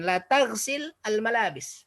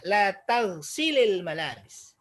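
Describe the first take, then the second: First: The verb ends abruptly before the next word. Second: The verb flows into the next word with -il. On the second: "kalau dia nyambung beginilah jadinya"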